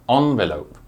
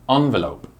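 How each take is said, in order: Both takes have the same delivery.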